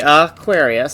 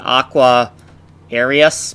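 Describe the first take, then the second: First: The word is said with its normal pronunciation. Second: The word is split into letter-by-letter parts. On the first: "how it's pronounced" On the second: "I'll actually say it phonetically so I can try to type the right keys"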